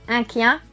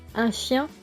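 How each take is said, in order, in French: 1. Le mot commence par un son 'k'. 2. Le mot commence par un son 'sh'. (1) "va se dire que" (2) "Le son che va se dire que"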